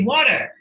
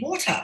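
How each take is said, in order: First: It is said in a Canadian accent. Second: It is said in a British accent.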